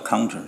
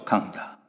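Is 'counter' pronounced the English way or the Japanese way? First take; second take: English; Japanese. First: It is said with English sounds. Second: It is said with Japanese-style sounds. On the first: "英文叫counter" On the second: "他们叫抗打"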